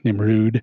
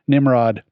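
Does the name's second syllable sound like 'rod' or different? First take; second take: different; rod. First: The second syllable has a different vowel sound. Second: The second syllable sounds like 'rod'. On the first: The speaker calls it right. "the accent over the O, so it's probably Nimrud" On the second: The speaker calls it wrong. "I'm sure it's not pronounced this way, but it's spelled this way"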